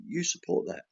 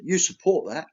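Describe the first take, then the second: First: "you support that." stated softer, falling, as a verdict; quiet flat statement. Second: "You support that?" asked with a falling tune and stress on "You"; accusing question. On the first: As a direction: settle it calmly: "you support that.". Tells farmer he supports it. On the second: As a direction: pin him with "You support that?". Asks farmer accusing question. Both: Retold or imitated.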